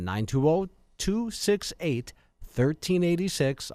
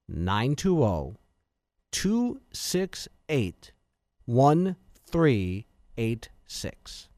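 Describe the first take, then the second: First: The number is read at normal speed. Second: The number is read slowly.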